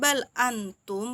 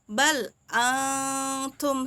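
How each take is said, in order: First: The n sound is pronounced clearly. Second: The n sound is hidden and nasalized. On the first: The speaker calls it wrong. "bukan bal antum, bukan jelas" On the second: The speaker calls it right. "tapi bal antum, samar dia bacanya"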